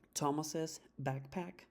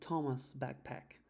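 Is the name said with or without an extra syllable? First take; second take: with; without. First: The name gets an added extra 'iz' syllable. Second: The name has no added extra syllable.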